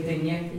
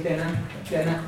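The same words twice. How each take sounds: First: Dinner as din-yeh with a ny sound; double N. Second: Dinner as din-eh, short plain n; single N. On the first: Teacher contrasting own Donegal version, double N. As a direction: soften the n of dinner into a y-glide. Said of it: "like a double N". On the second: Teacher showing the Connemara version, single N. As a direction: say dinner with one light n, no y-glide. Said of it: "they use a single N". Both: Shown as a demonstration.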